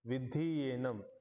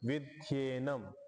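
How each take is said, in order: First: The words are said separately, each vowel kept. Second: The words merge, the vowels fusing into ya. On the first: "तीन शब्द आहेत" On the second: "इकार आणि एकार मिळून य बनला"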